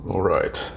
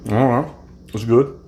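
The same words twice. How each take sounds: First: Chewing while talking; mumbled through a mouthful of salad; mouth full. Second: Said in the usual way. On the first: Real, not acted. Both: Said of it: "not to talk with my mouth full".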